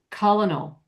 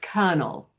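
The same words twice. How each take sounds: First: An L sound follows the first vowel. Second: No R or L follows the first vowel. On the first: "where they actually do pronounce the L" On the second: "the R is not sounded with this accent"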